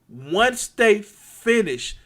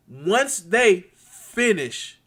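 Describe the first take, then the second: No difference in how they are said.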